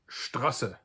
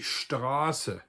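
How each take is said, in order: First: The first vowel is short. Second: The first vowel is long. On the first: "I would have to technically pronounce that Strasse" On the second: "which is a long ah"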